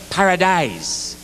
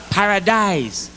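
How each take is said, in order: First: Slow, dreamy "paradise", stretched long; drawn-out paradise. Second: Slow, stretched "paradise" again; drawn-out paradise. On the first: Comic selling the islands, drawn-out paradise. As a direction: sell "paradise" like a brochure, slowly. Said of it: "Barbados, paradise". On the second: Comic repeating the island pitch, slow paradise. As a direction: savour "paradise" slowly. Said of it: "Jamaica, paradise". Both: Shown as a demonstration.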